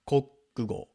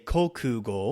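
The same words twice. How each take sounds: First: The middle vowel is devoiced and swallowed. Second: The middle vowel is clearly voiced. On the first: "when it's said quickly, they're going to take the oo out of the middle" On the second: "You could say kokugo"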